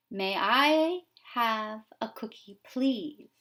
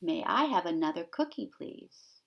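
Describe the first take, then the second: First: Slow, sweet little duckling asking nicely; polite duckling. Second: Polite duckling. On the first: Teacher voicing the duckling asking for a cookie, sweetly. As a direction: ask for the cookie ever so politely. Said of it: "The duckling saying". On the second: Teacher quoting the duckling's polite request, lightly voiced. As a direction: ask nicely, trailing off. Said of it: "What does the duckling ask for". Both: Acted.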